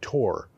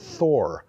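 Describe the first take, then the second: First: It begins with a plain 't' sound. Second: It begins with an English 'th' sound. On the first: "It would probably be Tor" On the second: "I'm pronouncing that in English"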